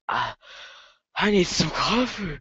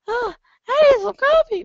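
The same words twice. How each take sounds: First: It is said in a deeper voice. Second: It is said in a high voice.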